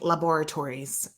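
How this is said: It is said with a British pronunciation. "a lot of English people say it that way"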